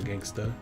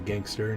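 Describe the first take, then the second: First: The word ends with a clipped 'a' sound. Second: The word ends with a full 'er' sound. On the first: The speaker calls it wrong. "not gangsta" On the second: The speaker calls it right. "I do say gangster"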